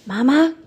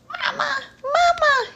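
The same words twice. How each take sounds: First: High, eager call; calling little bat. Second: High squeaky call; squeaky little bat. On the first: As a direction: call out to mother. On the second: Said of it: "he squeaked". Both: Acted.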